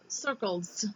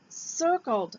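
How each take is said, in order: First: The word ends with an added s sound. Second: The word ends in a plain d sound. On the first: The speaker calls it wrong. "not circleds" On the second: The speaker calls it right. "and circled"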